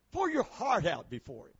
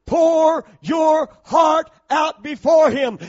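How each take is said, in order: First: Softer repeat, pitched down; quiet. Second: High, slow shouted phrase; loud shout. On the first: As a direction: say it back gently, almost to yourself. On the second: Shouted first take. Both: Real, not acted.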